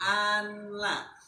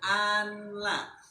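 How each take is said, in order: First: The n is pronounced clearly before the l. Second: The same.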